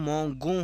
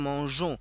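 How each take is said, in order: First: The middle consonant is a hard g sound. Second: The middle consonant is a soft zh sound. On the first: The speaker calls it wrong. "এটা না রাখি তাহলে হবে নু মঙ্গো হয়ে যাবে" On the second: The speaker calls it right. "আমাদের উচ্চারণ আনতে হবে মঞ্জো"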